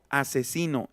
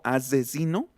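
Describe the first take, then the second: First: The middle s is said lightly, barely buzzing. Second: The middle s is buzzed strongly like z.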